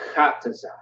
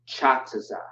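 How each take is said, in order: First: The name begins with a hard k sound. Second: The name begins with a ch sound. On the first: The speaker calls it right. "It's not ch, it's k" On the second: The speaker calls it wrong. "not Chataza"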